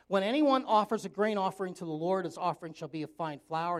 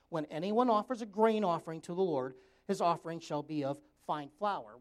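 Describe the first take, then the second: First: It is read at a normal pace. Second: It is read slowly and deliberately.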